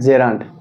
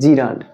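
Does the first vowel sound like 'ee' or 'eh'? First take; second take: eh; ee. First: The first vowel sounds like 'eh'. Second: The first vowel sounds like 'ee'. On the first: This is the proper pronunciation. The speaker calls it right. "কিন্তু এটার উচ্চারণ হবে জেরান্ড" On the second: This is how many people commonly say it. The speaker calls it wrong. "আমরা অনেকে এটাকে উচ্চারণ করি জিরান্ড"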